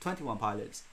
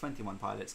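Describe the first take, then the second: First: The name is said slowly. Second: The name is said quickly. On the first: The speaker calls it right. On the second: The speaker calls it wrong.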